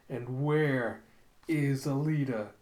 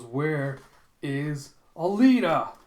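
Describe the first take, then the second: First: Slow, measured demand without shouting; menacing question. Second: Loud, drawn-out question swelling on the name; roared demand. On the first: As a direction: ask it word by word, held back. Villain's demand repeated, retold. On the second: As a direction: demand it word by word, building to a shout. Villain's demand, retold. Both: Retold or imitated.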